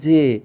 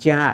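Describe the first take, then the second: First: The vowel is a closed e sound. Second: The vowel is an open ae sound. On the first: The speaker calls it right. "এভাবেই থাকবে" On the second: The speaker calls it wrong. "এরকম উচ্চারণ করা যাবে না"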